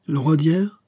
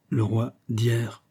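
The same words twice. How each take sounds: First: "Le roi d'hier" high, rising into a question; echoed question. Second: "Le roi d'hier" said slowly, as a statement; plain statement. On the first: Aramis echoing Fouquet, "Le roi d'hier" as a high question. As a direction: echo "Le roi d'hier" with raised pitch. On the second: Question, then answer repeating it. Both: Acted.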